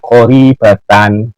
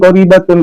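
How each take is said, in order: First: The word ends with an -an sound. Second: The word ends with an -un sound. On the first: The speaker calls it right. "tetapi itu bacanya qaribatan" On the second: The speaker calls it wrong. "Bukan qaribatun"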